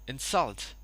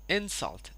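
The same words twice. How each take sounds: First: The stress is on the second syllable. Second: The stress is on the first syllable. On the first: It is used as a verb. "insult as a verb" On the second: It is used as a noun. "insult as a noun"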